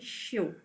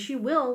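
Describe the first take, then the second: First: The words are contracted into one short syllable. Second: Both words are said fully and separately. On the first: "we say she'll" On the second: "Instead of saying she will"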